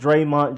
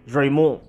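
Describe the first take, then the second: First: It is said with a plain English accent. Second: It is said with a French-sounding accent. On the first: The speaker calls it right. "it's just [name]" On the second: The speaker calls it wrong. "put some French on it"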